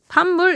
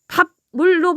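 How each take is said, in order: First: The first syllable ends with an m sound. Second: The first syllable ends with a b sound. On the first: The speaker calls it right. "반물 이렇게 발음이 돼요" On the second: The speaker calls it wrong. "밥물로 발음되는 것이 아니라"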